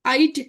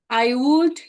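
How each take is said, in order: First: The word would is shortened to a d sound. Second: The word would is said in full. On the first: The speaker calls it wrong. "kalau menyebutkan jangan pakai I'd" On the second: The speaker calls it right. "Tetap aja bunyikan she would, I would"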